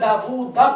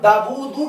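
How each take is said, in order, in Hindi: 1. यह शब्द 'a' स्वर पर खत्म होता है। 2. यह शब्द 'u' स्वर पर खत्म होता है। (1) "दाऊदा पढ़ दें" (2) "दाऊदू की जगह"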